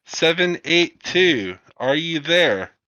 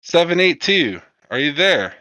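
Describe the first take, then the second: First: Slower, higher, deliberate second hail; repeated radio hail. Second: Higher, louder radio hail to a lost pilot; crackly comms call, pitched up; radio operator. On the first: Operator repeats the call when nobody answers, slow radio hail. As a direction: spell it out again, slowly, over the radio. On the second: Operator hails the downed pilot seven eight two, urgent radio call. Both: Acted.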